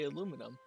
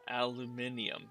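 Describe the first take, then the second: First: It is said the American way, four syllables. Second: It is said the British way, five syllables. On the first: "We say aluminum" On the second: "but over there it's like aluminium"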